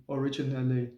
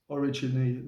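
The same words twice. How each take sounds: The two takes are said the same way.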